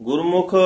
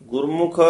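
The two takes are said the same way.

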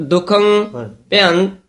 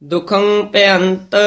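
The two takes are said the same way.

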